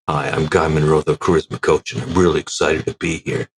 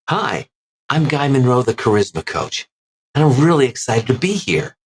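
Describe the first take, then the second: First: It is spoken at a lower pitch. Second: It is spoken at a higher pitch.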